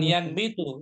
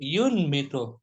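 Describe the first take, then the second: First: The first syllable has the vowel a. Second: The first syllable has the vowel u. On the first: The speaker calls it wrong. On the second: The speaker calls it right. "Ya-nya di domah. Yu"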